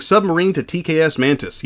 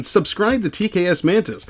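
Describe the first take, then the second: First: Said in the usual way. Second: Slow with SUBSCRIBE stressed; corrected reading. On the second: Shown as a demonstration. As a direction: put the weight on subscribe, slowly. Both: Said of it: "Yes, Submarine".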